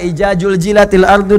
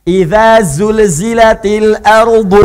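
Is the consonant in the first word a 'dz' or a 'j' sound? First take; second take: j; dz. First: The first word has a 'j' sound instead. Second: The first word has a clear 'dz' sound. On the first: The speaker calls it wrong. "yang paling parah" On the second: The speaker calls it right. "kalau udah lancar di awal, kesananya mudah"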